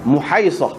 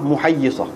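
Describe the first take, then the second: First: The middle has a single 'ai' sound. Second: The middle has a doubled y sound. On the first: "ada juga yang dibaca muhaisah" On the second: "saat ni kita baca huwayyisah muhayyisah. Begitulah hak lebih sahih"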